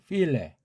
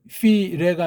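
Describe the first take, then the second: First: A short light L precedes the syllable 'le'. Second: The syllable 'le' starts without an added L. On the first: The speaker calls it right. "앞 글자에 리을이라고 하는 가벼운 기름칠 소리, 슬쩍, 짧게" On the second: The speaker calls it wrong. "feel레가 아니고"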